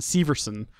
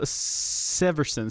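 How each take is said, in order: First: "Severson" with first syllable like "see"; long-E pronunciation. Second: "Severson" slow, first syllable like "sev"; short-E pronunciation. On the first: Host retrying an unfamiliar surname, "Severson" starting "SEE". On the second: Host attempting an unfamiliar surname, "Severson" starting "SEV". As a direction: say "Severson" with a short E, drawn out carefully. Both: Shown as a demonstration.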